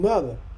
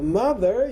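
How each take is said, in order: First: The final R sound is dropped. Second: The final R sound is clearly pronounced. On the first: "your ancestors just dropped them out" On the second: "instead of mother"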